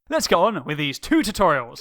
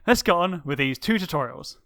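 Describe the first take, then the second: First: It is said with lively enthusiasm. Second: It is said flatly, without enthusiasm.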